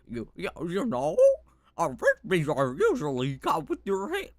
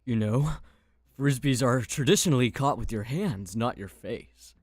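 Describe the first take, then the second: First: It is said in a goofy put-on voice. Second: It is said in an ordinary, non-goofy voice.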